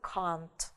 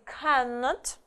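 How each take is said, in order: First: It is said as the short one-syllable contraction. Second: It is said as the full two-syllable form. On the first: "но в сокращенной будет can't" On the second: "в полной форме будет cannot"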